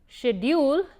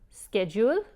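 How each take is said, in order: First: It is said in a British accent. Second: It is said in an American accent. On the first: "Schedule is what they say probably in England" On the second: "Schedule is what they say in the United States"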